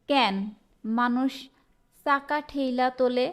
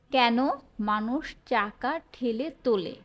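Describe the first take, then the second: First: চাকা with an "s" onset, ঠেইলা with a glide; word by word, dialect ঠেইলা for ঠেলে; regional dialect. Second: চাকা with a "ch" onset, ঠেলে without a glide; careful standard Bengali, plain ঠেলে; standard form. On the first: Teacher reads a regional sentence to students, dialect pronunciation. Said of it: "আঞ্চলিক বাক্য". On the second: Teacher gives the standard version of a sentence, standard pronunciation. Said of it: "এটার প্রমিত রূপ". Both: Shown as a demonstration.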